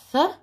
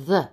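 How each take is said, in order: First: TH as a short breath without voice; unvoiced TH. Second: TH with a buzz in the voice; voiced TH. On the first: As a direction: puff out TH, as in mouth. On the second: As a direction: voice TH, as in weather. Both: Shown as a demonstration. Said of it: "Bathroom makes the th sound".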